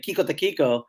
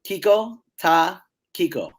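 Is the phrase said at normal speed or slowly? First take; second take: normal; slowly. First: It is said at normal speed. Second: It is said more slowly.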